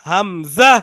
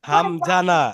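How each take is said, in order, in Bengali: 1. মাঝের ব্যঞ্জনটি z ধ্বনি। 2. মাঝের ব্যঞ্জনটি j ধ্বনি। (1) "বলতে হবে যা দিয়ে"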